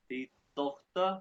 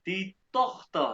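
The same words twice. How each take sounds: First: Die Tochter, slow again, Tochter rising; slow German. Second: Die Tochter, very slow, Tochter falling; slow German. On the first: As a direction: die Tochter drawn out, ending up. (die Tochter धीमे, उठती आवाज़ में) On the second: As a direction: die Tochter drawn out for the class. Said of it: "और अब देखो". (die Tochter धीमे-धीमे, गिरती आवाज़) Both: Shown as a demonstration.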